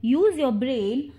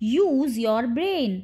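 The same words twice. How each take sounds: First: Said in the usual way. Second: Drawn-out teaching example; slow model repeat. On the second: Shown as a demonstration. Teacher models the phrase for English learners, slowly. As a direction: stretch the words slowly.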